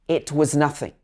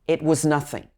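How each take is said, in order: No difference in how they are said.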